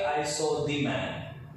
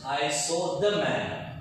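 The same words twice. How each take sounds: First: 'The' is said with a long 'thee' sound. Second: 'The' is said with a short 'thuh' sound. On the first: The speaker calls it wrong. "We never use here" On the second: The speaker calls it right. "when we come to consonant sound, we use"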